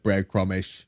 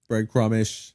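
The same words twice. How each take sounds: First: It is said in a Cockney accent. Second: It is said in the speaker's plain accent.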